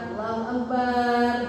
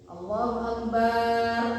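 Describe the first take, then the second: First: The vowel after b in akbar is drawn out. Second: The same.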